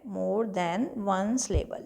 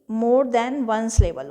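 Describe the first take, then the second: First: "more than one syllable" said very slowly and quietly; quiet, drawn-out "more than one syllable" for notes; slow, soft repeat. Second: Plain. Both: Shown as a demonstration.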